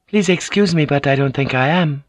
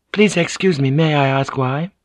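First: Gently disagree with her husband; lightly raised noblewoman voice; lightly voiced Mariko, polite refusal. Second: Gentle lady asking politely; lightly raised noblewoman voice; lightly voiced Mariko. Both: A narrator's reading.

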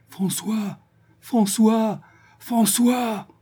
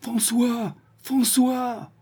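First: Desperate calls, pitched much higher; heartrending cry. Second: Anguished calls, much higher; tragic heroine sorrow. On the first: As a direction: cry out for your lost son. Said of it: "Elle appelait d'une voix déchirante". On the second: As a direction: call for him in despair. Searching house, calling son. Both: A narrator's reading.

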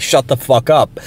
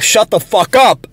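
First: Said in the usual way. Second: Higher, drawn-out re-enacted yell; toned-down retold yell. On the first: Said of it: "I said louder than that". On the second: Retelling his outburst at a ranting coworker, toned-down yell. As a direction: act out yelling without full volume. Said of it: "I just yelled as loud as I could".

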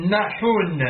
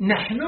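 First: نحون as "naḥun", u on the ḥ; original unshifted form. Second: نحن as "naḥnu", ḥ without a vowel; usual vowelled form. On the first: Reader showing the word's origin, older form "naḥun". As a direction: say نحون with the vowel moved back onto ḥ. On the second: Reader citing the word under discussion, usual form "naḥnu". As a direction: say نحن with silent-vowel ḥ, final u. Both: Shown as a demonstration. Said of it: "قلبت حركة الحاء على النون وأسكنت الحاء".

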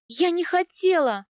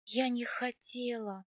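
First: High, loud, desperate protest; crying out. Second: Soft, slow, hushed regret; trembling whisper. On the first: Wife excusing herself to her husband, crying out. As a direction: cry it out pleadingly. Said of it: "выкрикнула я". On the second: Wife alone after husband rode off, trembling whisper. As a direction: murmur it weakly, near a whisper. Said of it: "прошептала я дрожащими губами". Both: A narrator's reading.

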